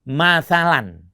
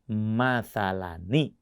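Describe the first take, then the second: First: The word ends in a plain 'n' sound. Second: The word ends in 'n' followed by 'i'. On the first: "nah ada nun matinya, kita dengar, tapi tidak ada tulisannya" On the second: "ketika dia bertemu dengan hamzah wasol, maka nunnya tampak"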